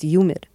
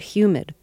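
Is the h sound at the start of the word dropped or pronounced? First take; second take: dropped; pronounced. First: The word begins with a y sound, no h. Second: The word begins with a clear h sound. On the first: "when you did it New York style" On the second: "when you first gave us the weather report, you said humid"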